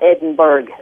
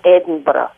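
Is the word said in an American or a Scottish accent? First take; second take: American; Scottish. First: It is said in an American accent. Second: It is said in a Scottish accent. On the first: "But most Americans call it" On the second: "The Scottish way to say it is"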